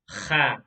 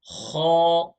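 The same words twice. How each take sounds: First: The sound is said thin, without a full mouth. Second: The sound is said heavy, with a full mouth. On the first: The speaker calls it wrong. "One is Kha" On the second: The speaker calls it right. "But the correct way is Kha"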